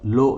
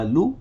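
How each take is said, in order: First: The vowel is an 'oh' sound. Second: The vowel is a pure 'oo' sound. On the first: The speaker calls it wrong. "लो नहीं होना चाहिए" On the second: The speaker calls it right. "ला दम्मा लू"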